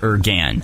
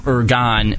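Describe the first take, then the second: First: The last syllable sounds like 'gan'. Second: The last syllable sounds like 'gon'. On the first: The speaker calls it wrong. "not Ergan" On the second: The speaker calls it right. "the pronunciations for Ergon is Ergon"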